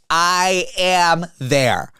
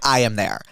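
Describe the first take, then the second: First: Each word stretched out very slowly; emphatic eagerness. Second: Said in the usual way. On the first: Retold or imitated. Telling friends how keen the reply was, drawn-out and emphatic. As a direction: drag out every word for emphasis. Eager answer to hangout invite.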